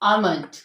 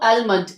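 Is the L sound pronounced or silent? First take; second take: silent; pronounced. First: The L sound is silent. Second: The L sound is pronounced. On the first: The speaker calls it right. "इसमें हम एल को silent रखते हैं" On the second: The speaker calls it wrong. "अक्सर लोग एलमेंट पढ़ रहे होते हैं तो इट इज रॉन्ग"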